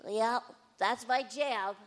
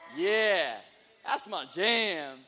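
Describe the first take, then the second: First: It is said in a nerdy voice. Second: It is said in a street-style voice.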